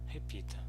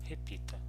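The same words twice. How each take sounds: Both takes have the same delivery.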